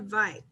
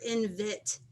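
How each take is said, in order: First: The second syllable has a long I vowel. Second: The second syllable has a short I vowel. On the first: The speaker calls it right. "it says that long I sound" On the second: The speaker calls it wrong. "that's not a word"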